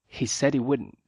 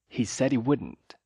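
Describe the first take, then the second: Both takes have the same delivery.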